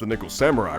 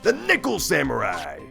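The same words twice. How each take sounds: First: It is said plainly with little energy. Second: It is said loudly with lots of energy. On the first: The speaker calls it wrong. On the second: The speaker calls it right.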